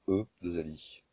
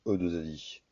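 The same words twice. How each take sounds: The two takes are said the same way.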